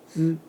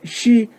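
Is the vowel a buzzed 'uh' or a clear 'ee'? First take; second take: buzzed uh; clear ee. First: The vowel is a buzzed, unrounded 'uh' sound. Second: The vowel is a clear, high 'ee' sound. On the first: The speaker calls it right. "쓰 발음합니다" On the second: The speaker calls it wrong. "일본 사람들이 중국어 배울 때 발음할 때 이걸 시라고 발음을 합니다"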